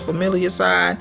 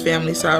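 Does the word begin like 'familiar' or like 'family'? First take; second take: familiar; family. First: The word begins like 'familiar', then 'side'. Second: The word begins like 'family', then 'side'. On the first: "or you can pronounce it as familiar side" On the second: "You can pronounce it as family side"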